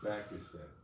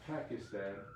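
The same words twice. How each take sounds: First: The word begins with a B sound. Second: The word begins with a P sound. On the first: The speaker calls it right. "there's no P... With a ba" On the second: The speaker calls it wrong. "Not Pakistan"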